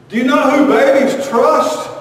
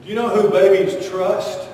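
First: Higher, louder insistent question; louder repeat. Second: Said in the usual way. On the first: Acted. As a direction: push the question again, demanding an answer.

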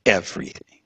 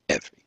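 First: Said in the usual way. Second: Hushed echo. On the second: Real, not acted. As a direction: repeat "Everything" almost silently, much softer. Soft echo of everything lost.

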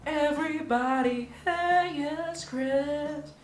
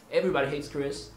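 First: High, slow show-title read; announced title. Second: Said in the usual way. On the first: Shown as a demonstration. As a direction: present it like a TV title card. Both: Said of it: "so I will say".

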